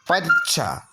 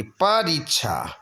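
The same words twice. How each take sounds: First: परीक्षा with a swallowed ri; short i. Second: परीक्षा slow with a held ree; long ee. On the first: Teacher showing the error, परीक्षा with short ri. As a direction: rush the ri in परीक्षा. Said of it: "छोटी की मात्रा नहीं". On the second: Teacher giving the correction, परीक्षा slow with long ree. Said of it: "बड़ी ई की मात्रा". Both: Shown as a demonstration.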